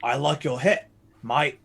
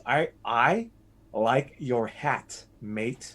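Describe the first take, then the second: First: "hat" as "het", "mate" as "might"; Australian vowels. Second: Said in the usual way. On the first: Shown as a demonstration. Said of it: "But you say het". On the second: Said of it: "Actually, there's a phrase".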